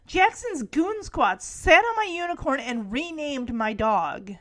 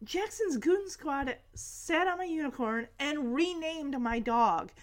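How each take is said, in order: First: Mildly indignant tattling, full voice; lightly acted kid's complaint; retold complaint. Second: Softer mock tattling; understated imitation of an indignant kid; softer retold complaint. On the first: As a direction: imitate a kid reporting an offence. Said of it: "Max says". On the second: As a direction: repeat the kid's complaint more quietly. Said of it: "Max is like".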